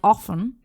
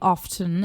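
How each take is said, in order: First: The word is said with a silent T. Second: The word is said with the T sounded. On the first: "most people in uh, the U S pronounce it like" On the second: "and the T is pronounced"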